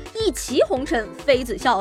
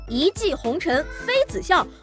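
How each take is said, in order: First: 骑 is given its current standard reading. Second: 骑 is given its older, traditional reading. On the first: "根据现在的规范读音，怕是要叫做" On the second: "原来呢叫做"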